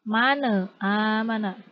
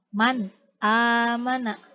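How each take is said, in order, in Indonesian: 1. N dipantulkan dengan tambahan vokal. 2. N diucapkan dengan bersih dan jelas. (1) "Tidak tidak dipantulkan" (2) "cara membaca dari idhar ini yaitu jelas"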